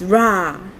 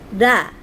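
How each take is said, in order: First: The consonant sounds like an English R. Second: The consonant sounds like an English L. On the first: "some people say it's ra" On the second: "but I pronounce it da. So it sounds like L A"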